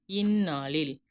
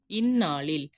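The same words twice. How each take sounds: The two takes are said the same way.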